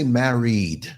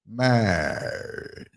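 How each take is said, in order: First: The word is said with two syllables. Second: The word is squeezed into one syllable. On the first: "They don't say married" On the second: "married is a is a one syllable word"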